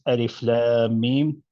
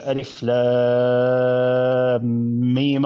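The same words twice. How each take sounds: First: The final Mim is held long before stopping. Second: The final Mim is short and runs straight on. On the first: "Mim is extended six" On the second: "without extending it six harakat"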